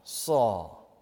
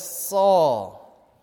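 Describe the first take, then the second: First: Jesus calling Saul again, tenderly; Jesus, tender repeat. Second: A firm, louder call of the name; Jesus calling Saul, first call. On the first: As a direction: let the second Saul fall gently, like a parent. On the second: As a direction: call out Saul with gentle authority. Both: Retold or imitated. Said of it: "And Jesus says".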